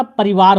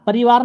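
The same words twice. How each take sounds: First: "परिवार" with short i, pa-ri-vaar; corrected form parivaar. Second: "परिवार" with long ee, pa-ree-vaar; wrong form pareevaar. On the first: Teacher correcting students, "परिवार" as short pa-ri-vaar. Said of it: "परिवार होता है". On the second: Teacher rejecting the word, "परिवार" as pa-ree-vaar. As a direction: stretch the i in "परिवार". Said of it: "परिवार नहीं होता". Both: Shown as a demonstration.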